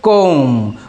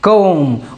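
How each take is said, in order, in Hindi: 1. यह शब्द m की आवाज़ पर खत्म होता है। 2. यह शब्द m की आवाज़ पर खत्म होता है।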